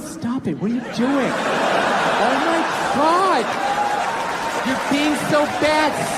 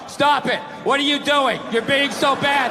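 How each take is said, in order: First: It is said in a playful, teasing way. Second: It is read out flatly, without feeling.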